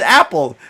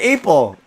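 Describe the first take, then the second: First: The first vowel is the short 'a' sound. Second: The first vowel sounds like the letter A. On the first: "She never says apple" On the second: "She said April. ... they assume it's pronounced as A"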